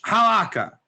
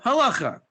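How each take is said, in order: First: The middle consonant is a hard k sound. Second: The middle consonant is a throaty ch sound. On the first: It is read from the English spelling. The speaker calls it wrong. "How many of you pronounce it halakha? Because it's written in English" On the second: It is the original Hebrew form. The speaker calls it right. "But it's actually called halacha"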